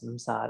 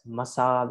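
First: Msa with no vowel after the m, one heavy syllable; teacher sounds out msa as m-sa cluster; msa said as written. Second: Masa with a full a vowel between m and s; Myanmar reading masa. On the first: Shown as a demonstration. Teacher shows students the correct msa reading. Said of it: "try to read it as msa". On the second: Retold or imitated. Teacher contrasts the common Myanmar reading masa. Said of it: "they read this as masa".

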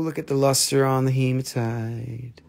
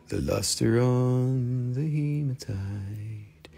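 First: Said in the usual way. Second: Soft, very slow put-on voice; put-on seller voice. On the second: Repeating the line to viewers in a soft, slow put-on seller voice. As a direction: coo it slowly like a different person.

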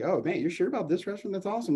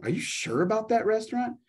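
First: Upbeat, pitched higher; excited tone. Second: Skeptical, rising question; doubtful tone. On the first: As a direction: sound thrilled about the restaurant. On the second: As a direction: sound unsure of the restaurant. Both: Shown as a demonstration. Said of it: "their tone is like".

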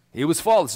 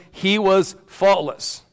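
First: Said in the usual way. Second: Slow, drawn-out stress on was; he was faultless, dragged out for weight; slow emphasis. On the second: Shown as a demonstration. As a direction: land was heavily and take it slowly. Repeats key phrase for emphasis.

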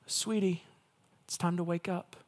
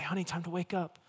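First: Put-on soft, tender voice to a child; gentle wake-up call. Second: Put-on soft, tender voice to a sleeping child; gentle wake-up call. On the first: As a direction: coax a sleeping child awake. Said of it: "Like you would maybe wake your kids up". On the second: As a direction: coax a child awake gently. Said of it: "rub their back gently and say".

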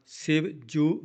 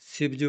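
First: "Shiv ਜੂ" split into two words; said separately. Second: "Shiv ਜੂ" run together as one word; no gap inside "Shiv ਜੂ"; said joined. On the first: Teacher showing the mistake, "Shiv ਜੂ" split apart. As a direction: put a gap between the words of "Shiv ਜੂ". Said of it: "ਵੱਖਰਾ ਨਹੀਂ ਬੋਲਣਾ". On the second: Teacher showing correct phrasing, "Shiv ਜੂ" joined. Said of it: "ਇਕੱਠਾ ਬੋਲਣਾ". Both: Shown as a demonstration.

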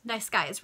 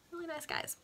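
First: Said in the usual way. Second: Higher, softer sarcastic aside; deadpan the irony dryly. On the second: Real, not acted. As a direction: reader mocking the killers, sarcastic. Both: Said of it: "sarcastic comment".

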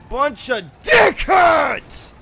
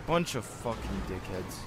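First: Slow, high shouted insult; drawn-out shout at players; angry yell. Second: Very low, quiet cursing; soft, low, sullen insult; muttered grumble. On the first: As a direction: bellow it, stretching the words. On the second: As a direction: grumble it under your breath. Grumbles at other players. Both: Real, not acted.

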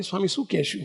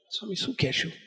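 First: Softer, quiet private question; soft aside. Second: Much softer, quietly asking the swami; soft aside. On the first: Bapji repeats his question to the swami, quietly. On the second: Bapji asks the swami privately what to say, softly. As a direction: murmur it privately, leaning in. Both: Retold or imitated. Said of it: "બાપજી મને ધીમે રહીને કે".

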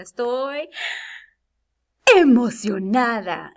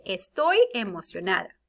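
First: Loud, drawn-out burst of excitement; excited exclamation. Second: Said in the usual way. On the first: Shown as a demonstration. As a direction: hold back, then burst out excited. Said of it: "para decirlo bien, ponemos los puntos de exclamación". (exclamación muy emocionada) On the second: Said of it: "¿Me escucho emocionada?".

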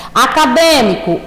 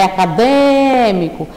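First: Said in the usual way. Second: "acadêmico" with DÊ held long; stressed antepenultimate syllable. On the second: Shown as a demonstration. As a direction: stretch out the DÊ in "acadêmico". ("acadêmico" alongando bem o DÊ) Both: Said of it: "den, né".

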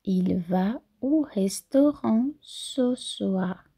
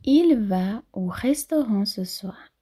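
First: Slow, drawn-out repeat. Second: Slowish model sentence. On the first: Teacher repeating for students, very slow. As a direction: spell it out slowly. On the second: Teacher modelling for students, clear. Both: Shown as a demonstration. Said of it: "é importante trabalhar a fonética".

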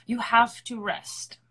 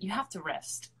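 First: "rest" slower and louder, each word weighted; emphatic repeat. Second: Said in the usual way. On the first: Shown as a demonstration. Urging singers to rest, slow louder emphatic insistence. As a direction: lean in slowly on "You have to rest".

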